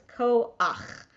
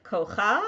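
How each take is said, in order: First: 'koach' slowly as ko-ach, guttural ch last; correct koach reading. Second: 'kocha' ending on an open cha; wrong kocha reading. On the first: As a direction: stretch koach, ending on ach. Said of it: "So it's koach". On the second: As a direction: say kocha, guttural ch before the final vowel. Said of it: "but it's not". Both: Shown as a demonstration.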